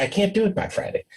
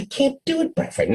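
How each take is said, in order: First: Higher, quick, softer protest; a nervous employee refusing, higher and hurried; meek refusal. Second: Much higher, quick pleading protest; a frustrated employee refusing again, pitched high; exasperated refusal. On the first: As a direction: push back timidly and quickly. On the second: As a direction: whine it back at the boss, quick and high. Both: Retold or imitated.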